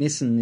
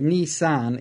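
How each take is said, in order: First: The name is said in the Australian style. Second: The name is said in the Japanese style. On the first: This is the common local usage. "we are an Australian. Nissan is the predominant" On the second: This follows the original Japanese words. "So Nissan is the actual correct pronunciation"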